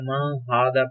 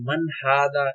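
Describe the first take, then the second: First: The n sound is hidden and nasalized. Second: The n sound is pronounced clearly. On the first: "छुपाना है" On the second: "जाहिर करना है"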